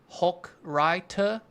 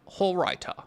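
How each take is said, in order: First: The middle consonant is a hard K sound. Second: The middle consonant is a throaty, raspy sound. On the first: The speaker calls it wrong. "It's more like a K sound" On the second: The speaker calls it right. "No K sound"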